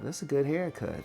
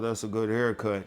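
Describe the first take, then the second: First: The compliment is said in an excited, admiring tone. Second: The compliment is said in a casual, plain tone. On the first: The person is flirting. "pay attention to their tone of voice" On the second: It is just a polite remark. "it depends on how they say it"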